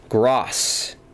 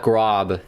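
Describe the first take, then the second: First: The name ends with an S sound. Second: The name ends with a B sound. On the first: The speaker calls it right. "it's pronounced like an S" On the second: The speaker calls it wrong. "not Grob"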